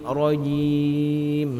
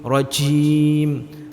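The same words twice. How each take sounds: First: The j is firm, from mid-tongue, without air. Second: The j is airy and pushed forward. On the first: The speaker calls it right. "Letakkan di tengah ... seperti itu" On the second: The speaker calls it wrong. "jimnya masih berangin ... salah"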